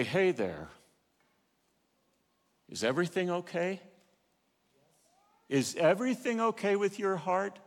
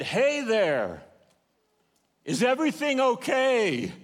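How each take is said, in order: First: Gentle Holy Spirit. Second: Calling from shore. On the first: Acted. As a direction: ask gently, as a caring inner voice. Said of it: "the Holy Spirit say". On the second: Retold or imitated. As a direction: hail them from a pier a hundred yards off. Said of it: "that man said".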